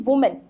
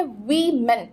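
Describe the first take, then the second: First: वुमेन with a "wu" sound; wrong pronunciation. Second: वीमेन with an i sound after the w; correct pronunciation. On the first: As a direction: show the mistaken वुमेन with rounded u. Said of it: "ना कि वुमेन". (वुमेन का गलत उच्चारण, "वु" से) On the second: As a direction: model वीमेन as "wi-men", no u. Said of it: "डब्ल्यू के साथ आई word का साउंड". (वीमेन का सही उच्चारण, "वि" के साथ) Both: Shown as a demonstration.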